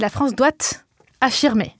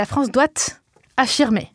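First: There is a pause after the t of doit. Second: There is a pause after the t of doit.

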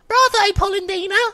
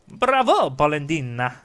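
First: It is said in a tiny, mysterious character voice. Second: It is said in a normal reading voice.

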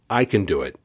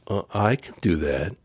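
First: It is said firmly and confidently. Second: It is said hesitantly and weakly.

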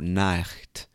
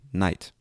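First: A harsh throat sound comes before the final t. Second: No throat sound comes before the final t. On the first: This is how the word was said in the past. "we stopped making that sound with the back of our throat" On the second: This is how the word is said today. "now we just say"

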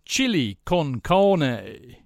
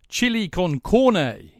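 First: The last word sounds like 'carne'. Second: The last word sounds like 'corne'. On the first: The speaker calls it wrong. "it sounded like carne" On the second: The speaker calls it right. "Yes, good"

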